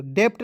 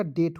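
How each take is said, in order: First: डेप्ट with a p sounded before the t; wrong pronunciation. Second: डेट with no b or p before the t; silent B. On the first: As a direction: sound the silent letter in डेप्ट. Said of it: "डेप्ट नहीं पढ़ेंगे". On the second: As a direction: say डेट, straight from vowel to t. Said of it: "बी को silent कीजिएगा". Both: Shown as a demonstration.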